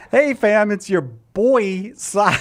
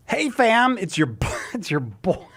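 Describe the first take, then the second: First: Loud hyped influencer greeting, stretched; ironic zoomer. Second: Hyped influencer greeting; ironic zoomer. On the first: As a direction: open big like a Gen Z streamer. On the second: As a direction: pitch it like a youth vlogger. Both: Acted. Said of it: "Cy promoing something in Gen Z slang".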